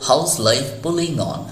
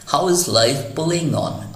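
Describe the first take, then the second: First: 'How is' is shortened to one syllable, 'how's'. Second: 'How is' is said as two full words. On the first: "उसी को short में है हाउस" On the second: "हाउ इज है"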